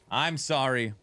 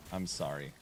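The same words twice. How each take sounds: First: Said in the usual way. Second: Much lower and softer, tender; hushed, tender I'm sorry; soft apology. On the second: Real, not acted. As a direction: murmur a gentle sorry. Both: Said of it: "I'm sorry repeated".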